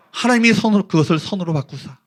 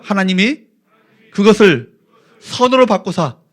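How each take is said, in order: First: Said in the usual way. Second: Feed it in chunks for the congregation to repeat; phrase-by-phrase lead. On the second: Shown as a demonstration. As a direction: pause after "하나님이" and after "그것을", then "선으로 바꾸사". ("하나님이", "그것을", "선으로 바꾸사"를 끊어서 선창) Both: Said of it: "따라할까요?".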